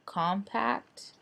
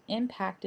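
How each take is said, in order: First: "compact" said with a hard k, a slip for Impact; the wrong word "compact", kahm-pact; slip of the tongue. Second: "Impact" said im-pact with no k sound, the right font name; correcting yourself to "Impact"; corrected word. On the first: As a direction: mistakenly say "compact" instead of the font name. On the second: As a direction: fix it to "Impact", starting on the vowel. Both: Real, not acted. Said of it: "not compact".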